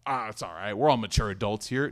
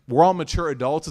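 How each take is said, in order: First: A lightly mocking, breezy shrug of a quote; mock nonchalance. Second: "We're all mature adults" said louder, lifted up on "all" to expose it; pointed mock quote. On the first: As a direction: brush it off like it's no big deal, half-mocking. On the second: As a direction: hold the excuse up for scrutiny, with a rise on "all". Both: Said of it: "Don't try to play it cool".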